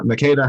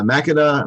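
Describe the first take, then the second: First: Makeda said the other way, stress on the middle syllable; alternative pronunciation attempt. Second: Makeda said as one tentative reading of the name; first pronunciation attempt. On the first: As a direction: try Makeda as ma-KAY-da. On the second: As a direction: try Makeda with the first syllable stressed. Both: Shown as a demonstration. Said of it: "however you say this word".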